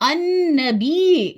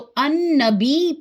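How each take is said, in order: First: The final y sound is doubled. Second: The final y sound is single or dropped. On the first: The speaker calls it right. "दो या, याद रखें या दो है" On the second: The speaker calls it wrong. "इस या को भूल जाते हैं"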